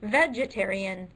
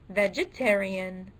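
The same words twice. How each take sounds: First: The stress is on the first syllable. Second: The stress is on the second syllable. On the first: "the first syllable" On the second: "the second syllable"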